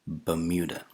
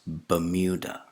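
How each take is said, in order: Both takes have the same delivery.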